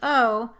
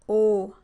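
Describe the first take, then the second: First: The vowel glides toward a different quality. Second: The vowel holds one steady quality. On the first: "English o" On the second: "French o"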